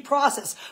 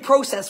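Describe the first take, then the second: First: It is said with an American accent. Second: It is said with a non-American accent.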